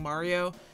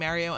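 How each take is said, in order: First: It is said with a standard pronunciation. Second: It is said with a New York pronunciation. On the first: The speaker calls it right. "the correct way is Mar- Mario" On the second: The speaker calls it wrong. "stop myself from saying Mario"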